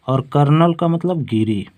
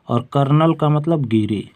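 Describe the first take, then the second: Both takes have the same delivery.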